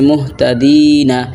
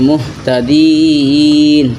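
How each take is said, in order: First: The word ends with a short vowel. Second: The word ends on a consonant. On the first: The reading continues into the next word. "এখানে আছে মুহতাদিনা" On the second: The reader stops at this word. "আপনি যদি থামেন তাহলে হবে মুহতাদিন"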